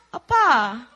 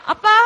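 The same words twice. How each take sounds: First: Said in the usual way. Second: 아빠 called out high and loud; calling out dad. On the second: Retold or imitated. Calling to dad, a high, loud 아빠. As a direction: call 아빠 loudly to get his attention. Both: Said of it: "And I was like".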